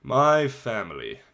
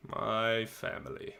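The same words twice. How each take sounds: First: Said in the usual way. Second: Softer and slow, dreading the words; quiet dread. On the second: Shown as a demonstration. Boy dreading telling listeners about family, softer and slow. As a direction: mutter it like the hard part. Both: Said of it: "the hard part".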